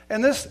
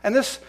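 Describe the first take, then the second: No difference in how they are said.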